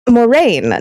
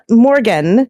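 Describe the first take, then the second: First: The name is said like Moraine. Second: The name is said like Morgan. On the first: The speaker calls it right. "Moraine, not Morgan" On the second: The speaker calls it wrong. "not Morgan"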